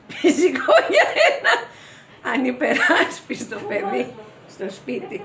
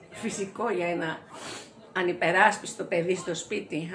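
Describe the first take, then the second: First: High, loud burst that eases down; laughing through words. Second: Said in the usual way. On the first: Acted. Actress repeating the line about the child, high laughing cry. Same line again, breaking up.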